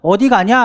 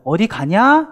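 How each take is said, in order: First: The stress falls on the first word. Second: The stress falls on the second word. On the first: The speaker really asks where the person is going. "여기서 빨리 강세를 줘서 읽으시면 되겠고요" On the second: It is just a greeting, not a real question. "이렇게 인사말로 건네는"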